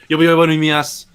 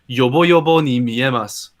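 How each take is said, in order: First: The phrase is said very fast and clipped. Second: The phrase is said at a normal pace.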